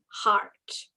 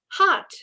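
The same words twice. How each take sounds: First: It is said in a Canadian accent. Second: It is said in an Australian accent.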